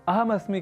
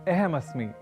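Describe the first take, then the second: First: The first vowel sounds like a short 'a'. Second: The first vowel sounds like 'e'. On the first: The speaker calls it right. "के बजाय" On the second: The speaker calls it wrong. "अ को ए इस रूप में उच्चारित कर दूं"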